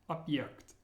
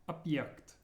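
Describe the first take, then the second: The two takes are said the same way.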